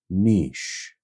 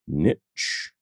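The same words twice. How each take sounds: First: It is said in the European way. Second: It is said in the US way.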